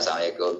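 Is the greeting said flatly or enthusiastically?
flatly. It is said flatly, without enthusiasm.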